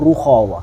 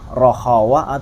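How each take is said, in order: First: The first vowel is a u sound. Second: The first vowel is an o sound. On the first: "Atau ada juga yang ruhawa" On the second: "nggak salah sih rohawa"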